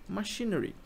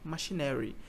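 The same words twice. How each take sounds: First: It is pronounced with the English sounds. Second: It is pronounced like the Portuguese word maquinário. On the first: The speaker calls it right. "qual é a pronúncia dessa palavra, que é machinery" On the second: The speaker calls it wrong. "se você, for a primeira vez que você lê essa palavra, você leia machinery"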